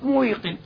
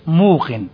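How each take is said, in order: First: A y sound follows the short u. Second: A long u follows the m, no y. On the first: The speaker calls it wrong. "ما ينفعش تيجي إيش ياء ساكن وقبلها مضموم، صعب جدا" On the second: The speaker calls it right. "فبنحولها إيش لو بصير إيش موقن"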